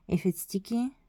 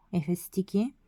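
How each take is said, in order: Both takes have the same delivery.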